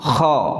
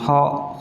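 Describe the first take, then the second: First: The first sound is a rough throaty rasp. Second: The first sound is a soft breathy h. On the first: The speaker calls it right. "Pakai ngorok" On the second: The speaker calls it wrong. "kha berarti kurang sempurna. Karena itu seperti menyamai huruf h"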